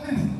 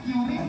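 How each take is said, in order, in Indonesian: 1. k dan r diucapkan bersama. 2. Vokal pendek memisahkan k dan r. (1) "Nama benar Kris" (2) "Kiris atau Kris?"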